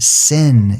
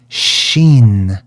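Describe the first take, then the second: First: The word begins with an s sound. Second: The word begins with an sh sound. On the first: "if you want to use it without the sh sound" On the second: "sometimes they would pronounce it with a sh sound"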